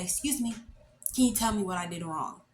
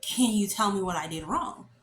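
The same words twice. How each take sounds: First: Composed polite request. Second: Pointed, questioning lift on WRONG; insistent repeated question. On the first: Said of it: "I decide to gather myself a bit". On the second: Failed student repeating the question to the examiner, insistent. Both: Retold or imitated.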